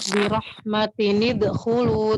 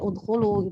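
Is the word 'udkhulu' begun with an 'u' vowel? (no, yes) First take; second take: no; yes. First: The word joins the previous one without its 'u'. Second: The word starts alone with an 'u' vowel. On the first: The reading continues from the previous word. "itu kalau diwasal ya" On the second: The reading starts fresh at this word. "kalau memulai dari ibtidak dari udkhulu ya udkhulu"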